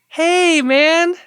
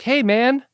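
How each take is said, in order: First: The voice is pitched very high. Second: The voice is pitched lower. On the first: The speaker is openly anxious. The speaker calls it wrong. "not all the way high" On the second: The speaker hides how concerned he is. The speaker calls it right. "you drop it down a little bit"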